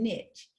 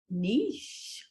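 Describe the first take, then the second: First: It is pronounced the way Southern speakers say it. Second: It is pronounced the way Arizona speakers say it. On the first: "I grew up saying niche" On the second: "we say niche"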